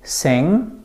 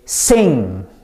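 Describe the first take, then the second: First: The s sound is soft and relaxed. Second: The s sound is strong and tense. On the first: "instead of saying sing" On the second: "Very strong and tense"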